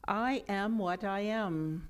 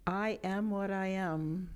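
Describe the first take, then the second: First: It is spoken loudly with lots of energy. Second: It is spoken in an ordinary speaking voice. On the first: "with much energy" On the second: "in a normal speaking voice"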